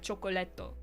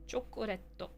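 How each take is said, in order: First: The middle consonant is a clear L. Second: The middle consonant is a light flap. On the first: The speaker calls it wrong. "It's not like chocolatto" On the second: The speaker calls it right. "It's like a mixture of an R, an L, and a D"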